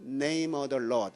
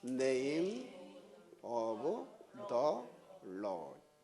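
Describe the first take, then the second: First: The phrase is said quickly with reduced sounds. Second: The phrase is said at a normal pace.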